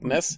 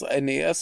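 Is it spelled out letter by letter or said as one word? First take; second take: one word; letter by letter. First: It is spoken as a single word. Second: Each letter is spoken separately. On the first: The speaker calls it wrong. "oder eben als ein Wort" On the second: The speaker calls it right. "sprichst du diese Anfangsbuchstaben einzeln aus"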